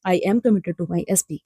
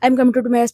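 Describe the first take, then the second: First: It is said slowly and calmly. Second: It is said fast and rushed.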